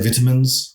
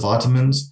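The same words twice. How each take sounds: First: It is said with a British English pronunciation. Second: It is said with an American English pronunciation. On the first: This is the word as the speaker learned it at home. "I got a lot of English words. So I say vitamins" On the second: This is the word as others would say it. "instead of vitamins"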